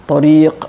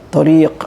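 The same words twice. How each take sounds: Both takes have the same delivery.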